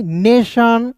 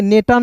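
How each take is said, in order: First: "नेशन" drawn out with a sh sound; correct reading. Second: "नेटन" with a hard T; wrong reading. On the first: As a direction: model "नेशन" ending in "shaan". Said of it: "क्या पढ़ेंगे?". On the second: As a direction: say "नेटन" as spelt, ending in "tan". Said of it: "नेटन नहीं". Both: Shown as a demonstration.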